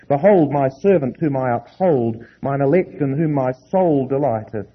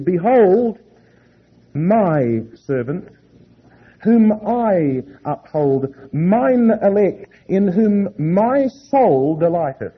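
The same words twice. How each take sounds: First: The pronouns referring to God are not emphasized. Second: The pronouns referring to God are emphasized. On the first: The speaker calls it wrong. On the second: The speaker calls it right.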